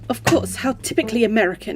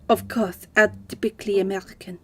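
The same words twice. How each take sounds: First: It is read in the speaker's plain voice. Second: It is said in a put-on French accent.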